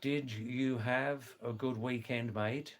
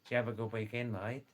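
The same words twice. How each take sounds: First: Said in the usual way. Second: Australian slur, "Did you have a" run into "Javva"; broad Aussie "mate", words run together; broad Australian accent. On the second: Shown as a demonstration. Showing listeners how Australians ask about the weekend, broad Australian accent. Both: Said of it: "that actually means".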